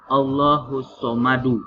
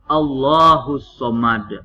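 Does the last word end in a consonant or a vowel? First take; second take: vowel; consonant. First: The last word ends with a short vowel. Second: The last word ends on a bare consonant. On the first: The speaker calls it wrong. "maka bukan Allahus Somadu" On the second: The speaker calls it right. "tapi apa? Allahus Somad"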